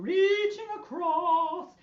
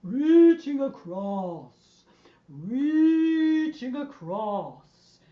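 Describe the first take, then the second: First: Slow, loud, raised lilting swoop; very sing-song. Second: Slow, loud, low swooping voice; very low sing-song. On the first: Teacher urging the group to be silly, very sing-song. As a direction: lilt it playfully, half sung. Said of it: "Be very sing-song". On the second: Teacher showing the group the low voice, slow and low. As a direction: draw it out from the bottom of the range. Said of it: "And very low". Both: Shown as a demonstration.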